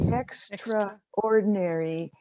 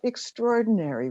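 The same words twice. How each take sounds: First: It is said as extra plus ordinary. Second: It is said as one blended word. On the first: Something is outside the regular role, unpaid. The speaker calls it right. "It's extraordinary, meaning unpaid" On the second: Something is remarkable. The speaker calls it wrong. "It's not extraordinary"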